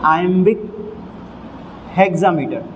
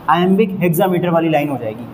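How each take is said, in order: First: Iambic and hexameter said as separate words with a long pause between; teacher spacing out iambic ... hexameter for the board; slow, deliberate term introduction; spelled out slowly. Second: Said in the usual way. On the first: Shown as a demonstration. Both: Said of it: "तो ये हो जाएगा".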